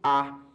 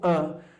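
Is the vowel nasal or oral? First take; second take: oral; nasal. First: The vowel comes out through the mouth only. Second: The vowel comes out through mouth and nose. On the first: "um som apenas oralizado, né? O som sai apenas pela boca" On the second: "um som que é nasalizado"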